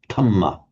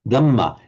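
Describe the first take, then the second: First: The first consonant is an aspirated d. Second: The first consonant is a plain d. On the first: "instead of dhamma" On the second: "an ordinary D with no uh, aspiration"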